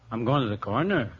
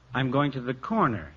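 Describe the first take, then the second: First: The voice rises at the end. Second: The voice falls at the end.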